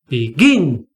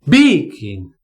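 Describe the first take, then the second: First: The stress is on the second syllable. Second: The stress is on the first syllable. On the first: The speaker calls it right. "It's begin... the stress here is on gin" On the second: The speaker calls it wrong. "I don't say begin"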